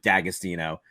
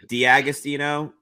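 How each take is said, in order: First: The name begins with a single 'Dag' sound. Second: The name begins with a separate 'Dee-ag' sound. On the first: This is the simplified, assimilated form. "we just dropped the fancy Diag" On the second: This is the original, technically correct form. "technically it's supposed to be"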